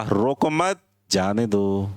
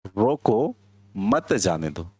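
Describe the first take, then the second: First: "रोको मत" as one unit, a break, then "जाने दो"; pause after मत. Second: "रोको" rising, a clear break, then lower "मत जाने दो"; pause after रोको. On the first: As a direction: split it as "रोको मत, जाने दो": don't stop them. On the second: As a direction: split it as "रोको, मत जाने दो": stop them. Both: Shown as a demonstration. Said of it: "पोज कहाँ देना है ये बदला".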